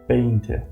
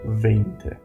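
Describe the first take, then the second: First: The word begins with a B sound. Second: The word begins with a V sound. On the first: The speaker calls it right. "We normally pronounce the word V in English uh, as a B" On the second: The speaker calls it wrong.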